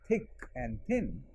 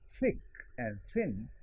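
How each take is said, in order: First: The th is a stop, tongue not between teeth. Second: The th is a fricative with tongue between teeth. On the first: This is how most people around say it. "so many other people saying they and there and thick and thin" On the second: This is the trained classroom form. "rather than thick and thin"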